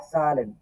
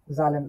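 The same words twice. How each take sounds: First: সালেন with a clear s at the start, like Bengali স; German s sound. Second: জালেন with an English z sound at the start; the common mistake, জালেন said with a z; wrong z sound. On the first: Teacher showing students the right German way, সালেন with an s. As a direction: say সালেন with s, not z. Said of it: "German উচ্চারণ বলে হচ্ছে স এর মতো". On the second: Teacher showing students the wrong way, জালেন with a z. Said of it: "এটাকে অনেকে বলবে হচ্ছে কি জালেন". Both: Shown as a demonstration.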